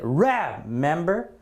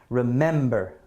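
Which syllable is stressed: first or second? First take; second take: first; second. First: The stress is on the first syllable. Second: The stress is on the second syllable. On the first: The speaker calls it wrong. "is the stress in the first syllable? Is it remember? No, it's not" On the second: The speaker calls it right. "the stress is definitely on the second syllable here"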